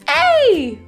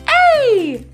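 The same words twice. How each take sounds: First: It is said in a playful, silly put-on voice. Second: It is said in a playful, silly put-on voice.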